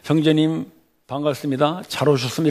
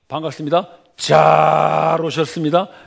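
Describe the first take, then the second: First: It is said flatly, without added warmth. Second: It is said with exaggerated, puffed-up warmth.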